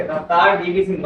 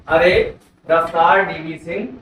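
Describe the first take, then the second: First: Said in the usual way. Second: Slow mnemonic recital. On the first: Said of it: "रफ्तार का पूरा नाम क्या लिखोगे?". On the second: Shown as a demonstration. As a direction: say "अरे रफ्तार DV Singh" slowly, each word spaced. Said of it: "ठीक है". (धीरे-धीरे रटाने वाला अंदाज़)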